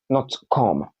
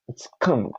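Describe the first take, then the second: First: The vowel is an 'o' sound. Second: The vowel is an 'uh' sound. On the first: The speaker calls it wrong. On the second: The speaker calls it right.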